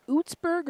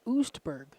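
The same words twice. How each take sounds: First: "Outsburg" with the ts before the b; pronunciation query. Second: "Oostburg" with the st before the b; alternative pronunciation. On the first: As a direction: offer "Outsburg" as one option, ts in the middle. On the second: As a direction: offer "Oostburg" as the other option, st in the middle. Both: Shown as a demonstration. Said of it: "Is it Outsburg or Oostburg?".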